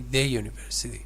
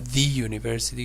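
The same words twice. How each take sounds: First: 'The' is said with a short 'uh' vowel. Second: 'The' is said with a long 'ee' vowel. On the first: The speaker calls it right. "you say" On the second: The speaker calls it wrong. "So you don't say"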